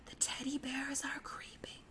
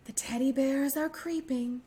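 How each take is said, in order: First: Very soft whisper of teddy bears are creeping; even quieter. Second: Said in the usual way. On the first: Shown as a demonstration. Librarian repeating the rhyme line even quieter, whispered. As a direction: whisper the line barely audible. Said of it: "even quieter this time". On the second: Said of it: "sing it or say it very quietly".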